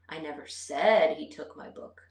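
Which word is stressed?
said. The stress is on the word said. I implied it without saying it aloud. "I might not have verbally said it"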